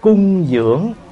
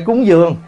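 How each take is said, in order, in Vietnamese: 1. Được nói theo thanh điệu gốc. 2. Được nói theo thanh điệu bị lệch, biến đổi. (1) "Nếu nói đúng chữ là thành tâm cung dưỡng" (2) "Bây giờ mình nói trại ra là cúng dường"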